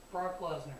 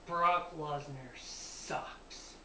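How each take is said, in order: First: Said in the usual way. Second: Brock Lesnar sucks drawn out very slowly; slow drawn-out declaration. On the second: Shown as a demonstration.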